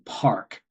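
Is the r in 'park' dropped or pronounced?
pronounced. The r is clearly pronounced. "that became Park"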